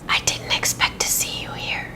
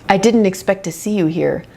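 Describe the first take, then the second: First: It is whispered with no voiced sound. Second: It is spoken aloud in a soft voice. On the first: The speaker calls it wrong. "That sounds kind of creepy when you whisper it" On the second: The speaker calls it right. "Sounds fine in a soft voice"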